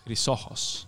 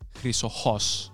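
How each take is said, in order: First: The stress is on the middle syllable. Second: The stress is on the last syllable.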